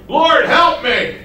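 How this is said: It is shouted loudly, like a scream. She is crying out in alarm. The speaker calls it wrong. "I don't think it's like"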